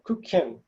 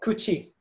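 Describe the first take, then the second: First: The word ends in a 'kee-en' sound. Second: The word ends in a 'chee' sound. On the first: The speaker calls it wrong. "you would think, oh, I know, that's, that's kukien" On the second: The speaker calls it right. "But actually that's pronounced kuchi"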